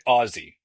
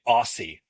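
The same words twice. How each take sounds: First: The middle consonant is a buzzing z sound. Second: The middle consonant is a hissing s sound. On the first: The speaker calls it right. "They say Aussie" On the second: The speaker calls it wrong. "They don't say Aussie. ... I really said the S instead of a Z"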